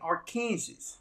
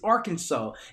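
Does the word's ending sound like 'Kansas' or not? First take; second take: Kansas; not Kansas. First: The ending sounds like the word 'Kansas'. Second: The ending does not sound like 'Kansas'. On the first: The speaker calls it wrong. "it's spelled like Kansas, but they put R in front of the Kansas" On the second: The speaker calls it right. "it's Arkansas"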